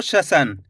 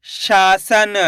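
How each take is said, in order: First: शसन with a short "sha"; short first vowel. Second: शासन slowly, with a long शा; stretched first syllable. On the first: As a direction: say शसन quickly, no long aa. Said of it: "ऐसे नहीं पढ़ना आपको". (शसन, शा को बिना खींचे) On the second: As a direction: sound out शासन, drawing out the aa. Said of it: "ऐसे नहीं पढ़ना आपको शसन". (शासन में शा खींचकर) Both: Shown as a demonstration.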